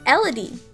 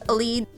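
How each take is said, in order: First: The name is said as Elodie. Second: The name is said as Elide. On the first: The speaker calls it wrong. "it's probably not right" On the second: The speaker calls it right. "which is most likely how you pronounce it"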